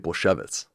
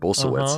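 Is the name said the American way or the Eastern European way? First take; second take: Eastern European; American. First: The name is said the Eastern European way. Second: The name is said the Americanized way.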